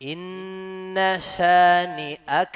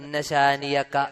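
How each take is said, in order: First: A glottal stop separates shani from aka. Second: A y sound links shani to aka. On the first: The speaker calls it right. "ഷാനി അ ഹംസയാണ്" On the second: The speaker calls it wrong. "ഷാനിയക്ക യാ ആണ് പല ആളുകളും ഹിഫ്ളാക്കി വെച്ചേക്കണ"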